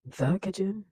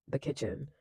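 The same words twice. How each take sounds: First: Higher, louder "The kitchen?" as a startled question; incredulous echo. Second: Said in the usual way. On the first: Retold or imitated. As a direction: echo "The kitchen?" back with raised pitch and force, imitating disbelief. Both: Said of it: "Why do you say it like that?".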